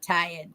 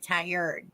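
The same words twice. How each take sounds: First: It is said in a Boston, non-rhotic accent. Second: It is said in a standard, rhotic accent. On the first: The speaker calls it wrong. "not tired. Tired's how I talk when I'm in Boston" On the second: The speaker calls it right. "Sorry, tired"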